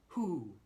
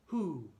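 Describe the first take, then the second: Both takes have the same delivery.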